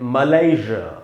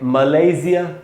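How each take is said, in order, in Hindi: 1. American उच्चारण, बीच में 'zh' की आवाज़ के साथ। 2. ब्रिटिश उच्चारण, बीच में 'z' की आवाज़ के साथ। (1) "अमेरिकन में पढ़ेंगे मलेशिया" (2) "ब्रिटिश में जो ज बोल रहा हूं मैं वो जेड वाला ज है"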